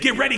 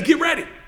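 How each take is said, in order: First: It is said quickly, the pace speeding up. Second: It is said at a steady, unhurried pace.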